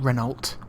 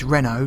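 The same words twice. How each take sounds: First: The word ends with a T sound. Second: The word ends without a T sound. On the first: The speaker calls it wrong. "not Renault. It's French, so you don't pronounce the T on the end" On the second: The speaker calls it right. "And it is Renault"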